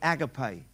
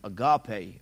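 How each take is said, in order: First: It is said in a non-American pronunciation. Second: It is said in an American pronunciation. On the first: The speaker calls it right. "the word agape" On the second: The speaker calls it wrong. "Or if you're American, agape or whatever"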